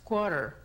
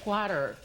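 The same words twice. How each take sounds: First: The first vowel is not a plain 'a'. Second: The first vowel is a plain Spanish 'a'. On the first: The speaker calls it right. "pero la pronunciación es quarter" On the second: The speaker calls it wrong. "vemos una A y la tendencia a decir quarter"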